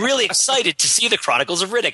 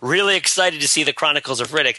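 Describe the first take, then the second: First: The tone is earnest and sincere. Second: The tone is mocking and sarcastic. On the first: The speaker is genuinely excited. "until it was sincere" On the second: The speaker is not actually excited. "jokingly saying"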